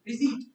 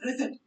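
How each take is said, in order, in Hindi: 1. कोई p sound नहीं, और लंबा खिंचा हुआ ee साउंड। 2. अंतिम t से पहले p साउंड बोला जाता है। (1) "ई साउंड स्ट्रेच हो रहा है" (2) "इट्स नेवर रिसिप्ट"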